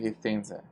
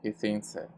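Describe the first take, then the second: First: The last vowel is reduced to a schwa. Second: The last vowel is reduced to a schwa.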